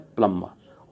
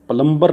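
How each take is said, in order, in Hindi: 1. m के बाद b की ध्वनि साइलेंट रहती है। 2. m के बाद b की ध्वनि बोली जाती है। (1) "प्लम्बर क्या बोलूँगा मैं" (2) "प्लम्बर नहीं बोलूँगा इसको मैं"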